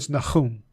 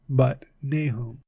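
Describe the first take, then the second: First: The name is said with a Hebrew pronunciation. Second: The name is said with an English pronunciation.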